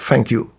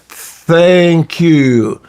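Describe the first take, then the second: First: The first sound is an f sound. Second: The first sound is a th sound. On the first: The speaker calls it wrong. "somebody advised me to use f, like" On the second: The speaker calls it right. "what he's trying to say is"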